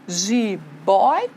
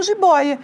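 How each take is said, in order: First: "Jiboia" split into separate, drawn-out syllables. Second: Said in the usual way. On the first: Shown as a demonstration. Teacher showing the separation, syllabified "Jiboia". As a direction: say "Jiboia" one syllable at a time. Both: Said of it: "Eu tenho ali a separação".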